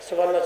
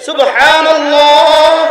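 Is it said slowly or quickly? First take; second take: quickly; slowly. First: It is said quickly and hurriedly. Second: It is said slowly and carefully.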